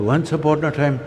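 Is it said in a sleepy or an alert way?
alert. It is said in an alert, engaged way.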